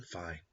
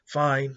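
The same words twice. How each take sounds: First: A soft, defeated "fine" trailing off; resigned fine. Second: "Fine" barked out higher and louder; a loud, exasperated "Fine"; grudging fine. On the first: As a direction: let "fine" fall away under the breath. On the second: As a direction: snap out "Fine" in annoyance. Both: Retold or imitated. Death gives in, grudging.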